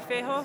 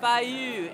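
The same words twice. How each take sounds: First: Fejø said as fay-ho with a questioning rise; Fejø as fay-ho, asking; unsure pronunciation. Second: Fejø said as fye-oo, falling; Fejø as fye-oo, copying the owner; corrected pronunciation. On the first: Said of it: "am I saying that correct". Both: Real, not acted.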